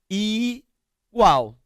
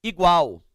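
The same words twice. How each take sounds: First: "Igual" said higher, the "i" set apart as its own syllable; syllables split. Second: Said in the usual way. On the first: Shown as a demonstration. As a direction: split "Igual" into i-gual for the class. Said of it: "O i tá sozinho, é uma sílaba". ("Igual" separado em sílabas, i-gual) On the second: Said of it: "por exemplo, a palavra".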